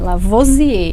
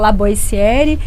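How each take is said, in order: First: The name is said with French sounds. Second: The name is said with Brazilian Portuguese sounds. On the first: This is the original form of the name. "tem que falar certinho" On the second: This is the family's adapted everyday form. "a gente aportuguesou ali o- a pronúncia"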